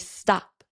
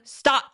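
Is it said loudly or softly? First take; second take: softly; loudly. First: It is said at a normal, soft volume. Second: It is shouted loudly in a commanding voice.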